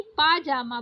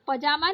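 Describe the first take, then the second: First: पाजामा with a long paa; correct long first vowel. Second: पजामा with a short first a; wrong short first vowel. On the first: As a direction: say पाजामा as "paa-jaa-maa". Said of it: "पाजामा बोला जाता है". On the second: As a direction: say पजामा as "puh-jaa-maa". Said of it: "पजामा नहीं". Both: Shown as a demonstration.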